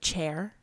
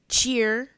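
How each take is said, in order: First: The vowel sounds like the vowel in 'air'. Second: The vowel sounds like the vowel in 'ear'. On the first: This is the usual way people say it. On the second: This is how a relative from the speaker's family says it.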